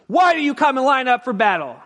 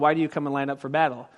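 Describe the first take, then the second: First: It is shouted loudly with forceful energy. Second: It is spoken in a calm, quiet reading voice. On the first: The speaker calls it right. "this is how you shout" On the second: The speaker calls it wrong. "we read it like this"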